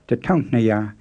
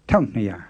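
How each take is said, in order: First: The short first syllable is pronounced. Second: The short first syllable is left off. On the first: "instead of" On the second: "the first syllable in tataung is so short that it sometimes gets left off altogether"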